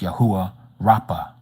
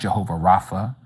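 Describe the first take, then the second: First: The name begins with a Y sound. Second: The name begins with a J sound. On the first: The speaker calls it right. "it's Yahuwah Rapha" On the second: The speaker calls it wrong. "It's not Jehovah Rapha"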